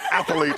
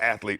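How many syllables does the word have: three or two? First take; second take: three; two. First: The word is said with three syllables. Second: The word is said with two syllables. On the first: "but athlete, it's three syllables" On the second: "when it's really just athlete"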